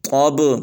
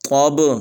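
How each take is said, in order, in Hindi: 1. t की आवाज़ मोटी और भारी है। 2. t की आवाज़ मोटी और भारी है।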